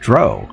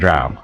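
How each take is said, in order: First: The vowel sounds like the vowel in 'row'. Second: The vowel differs from the vowel in 'row'. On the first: The speaker calls it wrong. "It's pronounced dro, like in row" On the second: The speaker calls it right. "it's always been drow"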